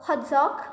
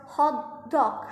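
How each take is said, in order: First: "hot dog" run together as one word; "hot dog" in one unit, no gap; compound-noun stress. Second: "hot dog" as two separate words, each stressed; "hot", slight gap, then a full "dog"; adjective-plus-noun stress. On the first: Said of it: "compound nouns, example words". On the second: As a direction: split "hot dog", giving "dog" its own weight. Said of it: "Adjective plus nouns". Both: Shown as a demonstration.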